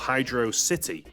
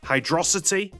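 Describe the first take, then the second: First: It is said as two separate words. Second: It is said as one word, like velocity. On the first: It is a watery city. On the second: It blends hydro and velocity.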